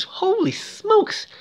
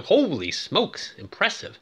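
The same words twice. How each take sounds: First: "holy smokes" pitched way up and stretched slowly; high, slow, drawn-out "holy smokes"; amazed. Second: Impressed. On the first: Real, not acted. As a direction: gasp out "holy smokes" in delighted disbelief. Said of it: "narrator's amazed exclamation". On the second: Retold or imitated. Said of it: "I'm going".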